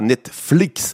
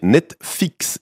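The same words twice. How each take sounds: First: It is said with an L sound. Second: It is said without any L sound. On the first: The speaker calls it right. "et pas Netflix" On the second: The speaker calls it wrong. "il vient de prononcer Netflix"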